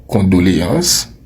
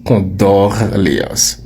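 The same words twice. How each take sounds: First: «Condoléances» with a plain o; «Condoléances» said cleanly, no extra r; correct condoléances. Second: «condoléances» slowly with an added r, "condorléances"; «condoléances» stretched and mispronounced with r; wrong condoléances. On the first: Teacher sets the right form against the wrong one. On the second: Teacher slowly imitates the wrong condoléances. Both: Shown as a demonstration. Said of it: "et non".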